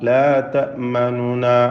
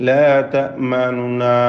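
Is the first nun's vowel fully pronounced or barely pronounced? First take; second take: barely pronounced; barely pronounced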